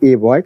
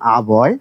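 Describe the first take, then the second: First: The article sounds like 'ay'. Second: The article sounds like 'uh'. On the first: The speaker calls it wrong. "আপনাকে যদি বলা হয় আপনারা কি বলেন?" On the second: The speaker calls it right. "কিন্তু এটা উচ্চারণ হবে আ বয়"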